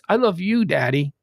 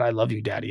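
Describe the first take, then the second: First: There is a clear pause before 'daddy'. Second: It runs on with no pause before 'daddy'. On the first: The speaker calls it right. "there's a comma in there" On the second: The speaker calls it wrong. "It's not"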